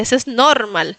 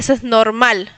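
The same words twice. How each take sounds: First: The stress in normal is on the first syllable. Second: The stress in normal is on the second syllable. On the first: "poner el acento en la primera sílaba" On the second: "él no dice eso es normal"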